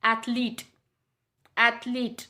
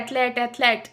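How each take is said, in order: First: एथलीट the right way, dental th; correct pronunciation. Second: एथलीट said "et-leet" with hard t; एथलीट with a plain t, the wrong way; common misreading. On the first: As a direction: say एथलीट as "athleet". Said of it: "main pronunciation होता है". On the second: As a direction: read एथलीट as "etleet". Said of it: "जबकि main pronunciation होता है". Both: Shown as a demonstration.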